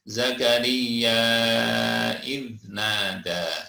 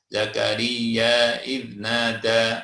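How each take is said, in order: First: The final vowel of Zakaria is held very long. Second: The final vowel of Zakaria is held briefly. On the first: "lima harokat dua setengah alif" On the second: "boleh dibaca dua"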